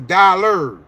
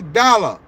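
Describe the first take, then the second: First: The word is said in a standard American accent. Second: The word is said in a Jamaican patois accent. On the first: "They don't say dollar" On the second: "In Jamaica, they say dollar"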